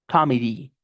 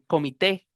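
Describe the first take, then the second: First: The word ends with an 'ee' vowel sound. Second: The word ends with an 'ay' vowel sound. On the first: The speaker calls it right. "con I al final" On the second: The speaker calls it wrong. "como en español"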